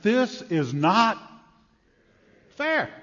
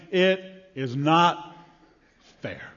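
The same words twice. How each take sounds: First: Mock indignant whine. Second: Grumbling workers' complaint. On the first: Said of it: "we read this parable and we say". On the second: Acted. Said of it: "they were saying".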